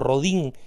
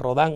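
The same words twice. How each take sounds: First: The name is said with a Spanish pronunciation. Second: The name is said with a French pronunciation.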